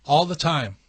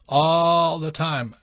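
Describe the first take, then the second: First: Said in the usual way. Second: All the time drawn out slowly and louder, stress on all; echoing himself slowly and louder for emphasis; slow emphatic repeat. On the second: Real, not acted.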